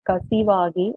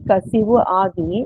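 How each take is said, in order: First: The two words are run together as one. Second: The two words are said separately. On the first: "வரிகளை வாசிச்சு" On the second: "அத பதம் பிரிச்சு"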